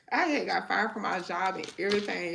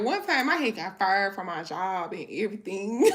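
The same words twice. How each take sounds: First: Said in the usual way. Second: Louder, laughing as she says it; can't keep the giggle out. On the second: Real, not acted. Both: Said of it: "it's funny now".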